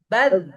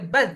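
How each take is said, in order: First: The final consonant keeps flowing without stopping. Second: The final consonant is cut off abruptly. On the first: The speaker calls it right. "tapi baz gitu ya" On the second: The speaker calls it wrong. "tidak boleh baz"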